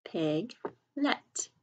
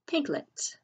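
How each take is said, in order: First: "Piglet" split as Pig, pause, let; slow, broken-up "Piglet" for early readers; syllable by syllable. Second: Said in the usual way. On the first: Shown as a demonstration. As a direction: sound out "Piglet" in two separate syllables. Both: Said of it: "sound it out by syllables".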